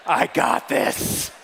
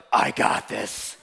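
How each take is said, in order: First: Lower, slow, breathy tough-guy line; slow and low, act tougher than you look; deep voice. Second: Much lower, slow, breathy tough-guy line; low and slow, tiny wife sounding tough; deep voice. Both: Retold or imitated. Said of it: "it's the deep voice".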